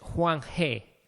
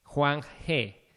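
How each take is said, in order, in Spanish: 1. La sílaba final se pronuncia 'he'. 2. La sílaba final se pronuncia 'he'.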